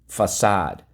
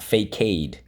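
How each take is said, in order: First: The c is said like an s. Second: The c is said like a k. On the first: The speaker calls it right. "we go fa-sad" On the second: The speaker calls it wrong. "it is not facade"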